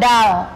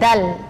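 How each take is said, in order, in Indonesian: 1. Lidah diangkat tinggi ke arah langit-langit. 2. Lidah tetap rendah di belakang gigi atas. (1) "Bukan dal" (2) "tapi dal. Jangan naikkan lidahnya terlalu ke atas"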